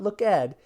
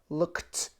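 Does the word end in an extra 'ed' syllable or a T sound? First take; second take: ed syllable; T sound. First: The ending is an extra 'ed' syllable. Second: The ending is a single T sound. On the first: The speaker calls it wrong. "not look ed" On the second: The speaker calls it right. "it will have a T sound"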